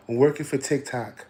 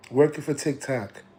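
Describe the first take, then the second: No difference in how they are said.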